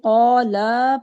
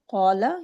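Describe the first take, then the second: First: The final vowel is drawn out. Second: The final vowel is kept short. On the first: Two people said it. "अगर हम इसको खींच देंगे" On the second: One person said it. "यानी कहा, उसने कहा"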